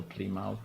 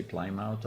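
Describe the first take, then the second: First: Plymouth said as PLEE-mouth, first vowel "ee". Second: Plymouth said as PLY-mouth, first vowel like "eye". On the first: Asking how to say the town, Plymouth as PLEE-mouth. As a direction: say Plymouth starting like "plea". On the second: Asking how to say the town, Plymouth as PLY-mouth. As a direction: say Plymouth to rhyme with "fly mouth". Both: Shown as a demonstration. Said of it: "Do you say Plymouth or Plymouth?".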